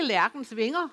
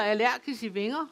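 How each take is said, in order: First: Said in the usual way. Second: Allergis i vinger said as the dialect possessive; Jutlandic genitive form. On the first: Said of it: "det hedder jo ikke". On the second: Shown as a demonstration. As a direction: dialect allergis i vinger, not standard lærkens. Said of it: "Det hedder".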